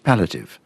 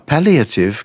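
First: The word is said with three syllables. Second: The word is said with four syllables. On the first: This is the newer, reduced form. "people are getting rid of the first one" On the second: This is the older, fuller form. "is coming out as"

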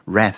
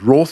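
First: The word is said in the American way. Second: The word is said in the dated British way. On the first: This is how it is said in America. "Rath is the American one" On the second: This way of saying it is going out of use. "Roth is already a little bit dated"

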